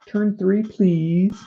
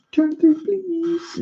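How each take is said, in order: First: Said in the usual way. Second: "Turn three, please" squeaked very high and slow; squeaky high voice. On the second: Pretend.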